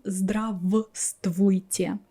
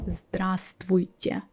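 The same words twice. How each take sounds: First: Здравствуйте slowly as "zdra-v-stvooy-tye"; over-careful здравствуйте, both "v" sounds heard; здравствуйте with every v. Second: Здравствуйте said as "zdra-stvooy-tye"; здравствуйте, silent v. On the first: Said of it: "I'm not saying здравствуйте". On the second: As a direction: drop the first в in здравствуйте. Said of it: "I skip this v". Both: Shown as a demonstration.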